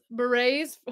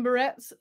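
First: "Berets" said as "beh-RAYZ" with a silent t; "Berets" fixed, beh-rayz, no t; corrected berets. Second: "Berets" said as "ber-ETS" with a hard t at the end; "Berets" the wrong way, ber-ets, sounding the t; mispronounced berets. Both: Shown as a demonstration.

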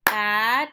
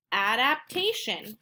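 First: "adaptation" in four louder, separated beats; syllable by syllable. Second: Said in the usual way. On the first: Shown as a demonstration. Teacher clapping four syllables, "adaptation" split up. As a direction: split "adaptation" as a, dap, tay, shun. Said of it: "I clap four times". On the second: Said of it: "finding out how many syllables".

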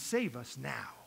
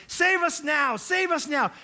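First: Said in the usual way. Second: High, loud crowd shout; crying out. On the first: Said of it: "they're crying out". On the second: Retold or imitated. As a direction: shout it as a desperate plea. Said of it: "crying out saying".

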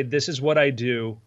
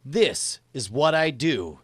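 First: Slow dictation example. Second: Slow, deliberate dictation. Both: Shown as a demonstration. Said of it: "what I want you to say".

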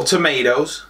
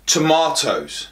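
First: TOMATOES said tuh-MAY-does; American TOMATOES. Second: TOMATOES said tuh-MAH-toes; British TOMATOES. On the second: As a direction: say TOMATOES the British way, with a long AH in the middle. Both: Shown as a demonstration. Whichever side of the pond.

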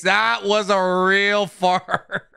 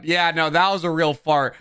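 First: Slowed down and breaking into laughter mid-sentence; can barely get it out for laughing. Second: Said in the usual way. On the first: Real, not acted. Streamer cracking up telling chat about the fart, laughing. Laughs through the repeated line.

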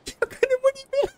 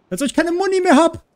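First: Very high-pitched panicked squeal; panicking gamer. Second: High, loud, exasperated outcry; panicking gamer. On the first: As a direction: screech it in total panic. (hoch kreischend, panisch) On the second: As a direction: yelp it out in disbelief. (panisch und schrill) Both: Real, not acted. Runs out of ammo mid-fight.

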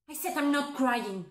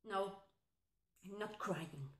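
First: Firm, full-voiced protest; insistent denial. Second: Very soft, low denial; hurt denial. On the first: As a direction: insist you are holding it together. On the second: Acted. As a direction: quietly hold back the tears. Denies crying after breakup.

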